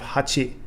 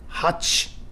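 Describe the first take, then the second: First: Every syllable is fully pronounced, including the final vowel. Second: The final vowel is dropped, ending on the consonant.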